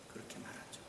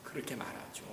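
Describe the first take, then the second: First: Whispered, even softer echo; barely audible whispered repeat. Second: Said softly, nearly unvoiced; hushed, almost breathless aside. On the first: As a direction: fade it into a whisper. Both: Shown as a demonstration.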